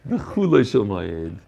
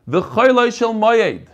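First: "V'Chuloi" with an oo, as khoo-loy; low, drawn-out KHOO in "V'Chuloi"; corrected "V'Chuloi" pronunciation. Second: "Choyloi" with an oy in the first syllable; slow, raised reading with KHOY in "Choyloi"; usual "Choyloi" reading. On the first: Retold or imitated. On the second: Real, not acted. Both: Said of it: "the Menaked V'Chuloi Shel Moyed".

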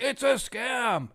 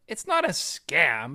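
First: High, drawn-out mimicry of doubters; mocking, slow and high-pitched; mock outcry. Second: Said in the usual way. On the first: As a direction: imitate naysayers in a high, stretched whine. Mimics online critics crying scam.

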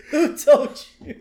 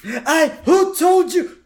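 First: High mock Burns with a laugh; laughing re-quote of who told you; lightly imitating Burns; repeating Burns line. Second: High, slow mock surprised old man; imitating Mr. Burns caught out; Burns quote. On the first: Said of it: "I love that". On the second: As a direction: stretch who in a squeaky Burns voice. Quoting Burns line.

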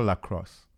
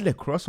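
First: "lacrosse" with an open "lah" start; second pronunciation option. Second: "lacrosse" opening like "leck"; first pronunciation option. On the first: Asking which is correct, "lacrosse" as lah-cross. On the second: Asking which is correct, "lacrosse" as leck-ross. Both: Shown as a demonstration. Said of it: "Is it lacrosse or lacrosse".

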